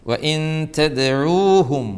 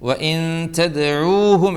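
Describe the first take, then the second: Both takes have the same delivery.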